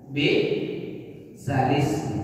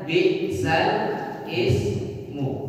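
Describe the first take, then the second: First: It is said as one joined word. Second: It is said as two separate words. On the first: This is how it is actually read. "dibaca bi'salismu" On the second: This is how it is written in the Quran. "Dalam Al-Quran tulisannya bi'sal ismu"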